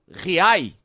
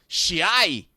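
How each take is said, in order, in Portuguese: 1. O nome é pronunciado do jeito que seu dono explica. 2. O nome é pronunciado com sotaque de Buenos Aires. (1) "como ele explicou" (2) "na pronúncia portenha"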